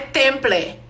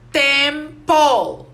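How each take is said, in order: First: The word ends with a vowel after the L. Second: The word ends with the L sound itself. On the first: The speaker calls it wrong. "Não é temple" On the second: The speaker calls it right. "nós trocamos o E com L na pronúncia"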